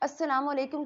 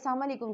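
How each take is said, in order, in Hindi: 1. salam में स की आवाज़ दोहरी खींची जाती है। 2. salam में स की आवाज़ छोटी और इकहरी है। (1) "सलाम में सीन पे तशदीद है" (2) "सीन की तशदीद को हम मिस कर देते हैं"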